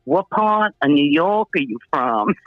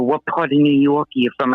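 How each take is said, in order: First: Imitated questioning. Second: Said in the usual way. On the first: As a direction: stretch it out, imitating nosy strangers. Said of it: "but they go like this". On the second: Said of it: "And they go".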